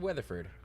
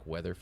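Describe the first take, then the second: First: The stress falls on the first part, Weather. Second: The stress falls on the last part, Ford. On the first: The speaker calls it wrong. "I would have said it wrong" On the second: The speaker calls it right. "I like emphasis on the Ford"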